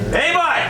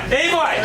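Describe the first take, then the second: First: It is said as a friendly hello. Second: It is said as a friendly hello.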